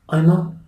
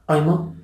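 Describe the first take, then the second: Both takes have the same delivery.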